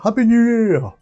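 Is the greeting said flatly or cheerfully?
cheerfully. It is said in a cheerful, jolly way.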